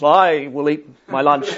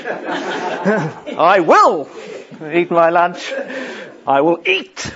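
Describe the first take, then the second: First: Said in the usual way. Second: I will eat my lunch, each word stressed in turn through a laugh; hammed-up preacher stress on I, will and eat; mock word-by-word emphasis, laughing. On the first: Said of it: "it was". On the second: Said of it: "he just emphasised each little bit".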